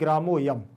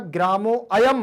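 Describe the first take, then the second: First: The 'a' is dropped and the words run together. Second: The 'a' of ayam is pronounced as a separate vowel. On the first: The speaker calls it right. "इसको पढ़ेंगे आप ग्रामोयम" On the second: The speaker calls it wrong. "ग्रामो अयम मत पढ़िएगा"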